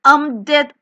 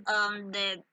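First: Louder, dramatic I'm dead; mock dying cry. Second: Much softer, dying away; fading mock death. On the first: Player hit in game cries out in mock agony. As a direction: announce your death loudly. Reacting to being killed in game. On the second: Player fades out after being killed in game. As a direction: let the line expire.

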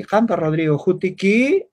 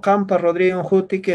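First: "Jutiki" lifted at the end like a Spanish question; rising question tune. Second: Said in the usual way. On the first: Shown as a demonstration. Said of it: "Yo no podría hablar así". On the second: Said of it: "es una afirmación".

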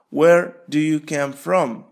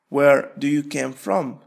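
No difference in how they are said.

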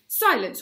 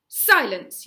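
First: Loud, sharp shout; repeated yell. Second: Very loud, cutting shout; yelled command. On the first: Gobber threatening the boys with Lugwelms, loud yell. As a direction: bark the order again, slightly less. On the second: Gobber silencing the squabbling boys, furious yell. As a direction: slam the word down like a hammer. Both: A narrator's reading. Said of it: "yelled Gobber".

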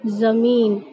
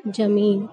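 First: ज़मीन said "zameen" with z; correct z sound. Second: ज़मीन said "jameen" with j, lower; rejected j sound. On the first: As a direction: begin ज़मीन with buzzing z, not j. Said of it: "सही तरीके से बोलेंगे". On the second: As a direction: begin ज़मीन with j instead of z. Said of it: "ना कि". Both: Shown as a demonstration.

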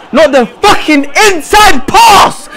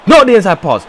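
First: Slow, high, angry yell; drawn-out furious warning; exasperated shout. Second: Said in the usual way. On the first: Real, not acted. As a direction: hammer each word at a player who won't listen. Repeats warning, now shouting.

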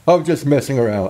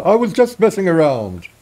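First: Said in the usual way. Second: Higher, lighter character voice for the same line; NPC voice. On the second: Shown as a demonstration. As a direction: redo the line as the villager. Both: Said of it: "I'll do it in this voice".

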